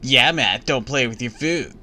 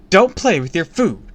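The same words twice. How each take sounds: First: Smug echo of the scolding, a little louder; mocking grin. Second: Sharp, loud motherly rebuke, much higher; angry scolding. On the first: Neighbor kid mocking Matt after mom's rebuke, smug grin. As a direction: tease him by parroting mom. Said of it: "Bradley said, grinning". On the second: Mom scolding son at breakfast, loud and angry. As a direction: bark it at the child across the table. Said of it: "glared at me". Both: A narrator's reading.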